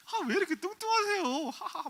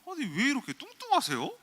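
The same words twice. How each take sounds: First: Very high, loud imitation ending in "hahaha"; laughing mockery. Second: High, loud incredulous quote of a blunt first-date jab; 대놓고 따지기. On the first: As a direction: mimic a date laughing at you. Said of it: "막 웃더라고요". (높은 목소리로 비웃으며 "하하하" 흉내) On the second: Retold or imitated. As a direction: imitate someone appalled, pitched way up. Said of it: "막 훑어보더니". (어이없다는 듯 높고 크게 따지는 흉내)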